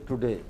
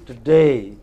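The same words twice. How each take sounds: First: The first syllable is full and clearly heard. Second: The first syllable is reduced and barely heard. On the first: The speaker calls it wrong. "you don't say today" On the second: The speaker calls it right. "This is hardly heard, barely heard"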